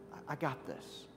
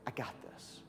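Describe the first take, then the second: First: Said in the usual way. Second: Whispered reassurance, much softer; hushed, confident whisper. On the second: Acted. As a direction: breathe it like a quiet promise. Jesus reassuring the sisters.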